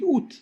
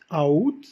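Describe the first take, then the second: First: The two vowels merge into one syllable. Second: The two vowels are said as separate syllables. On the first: The speaker calls it right. "on dit août" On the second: The speaker calls it wrong. "au lieu de dire a août"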